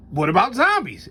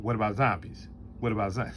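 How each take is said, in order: First: Said in the usual way. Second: "What about zombies" repeated lower and softer, dead flat; mimicking the humorless friend's flat question; imitating Rob's deadpan. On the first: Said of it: "as Rob said?". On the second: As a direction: drone it twice like someone with no delivery. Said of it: "Or as Rob said".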